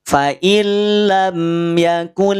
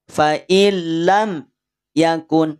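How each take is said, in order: First: It flows lightly with no pause after mim. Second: There is a pause after the mim sound. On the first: The speaker calls it right. "Santai aja cara bacanya, ringan aja" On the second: The speaker calls it wrong. "tapi malah dijeda"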